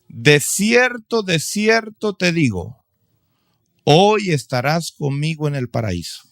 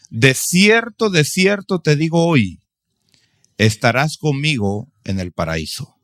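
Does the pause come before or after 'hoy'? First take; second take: before; after. First: The pause comes before the word hoy. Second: The pause comes after the word hoy.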